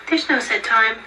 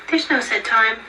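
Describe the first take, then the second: No difference in how they are said.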